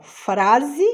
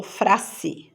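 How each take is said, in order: First: Said in the usual way. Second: "frase" with a hissed S in place of Z; S sound. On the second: Shown as a demonstration. Teacher offering the wrong option, "frase" with voiceless S. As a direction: say "frase" as FRA-ssi. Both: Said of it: "Som de Z".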